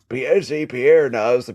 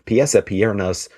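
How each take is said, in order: First: It is said in a put-on character voice. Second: It is said in the speaker's normal voice.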